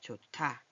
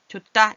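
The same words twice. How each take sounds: First: The middle consonant is an aspirated t sound. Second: The middle consonant is a plain d sound. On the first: The speaker calls it right. "좋다 이렇게 내는 거예요" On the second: The speaker calls it wrong. "이렇게 하면은 좋다 이게 아니라"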